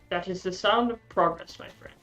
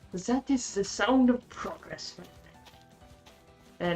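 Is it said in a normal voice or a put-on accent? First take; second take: normal voice; put-on accent. First: It is said in his normal voice. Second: It is said in the TF2 Medic's accent.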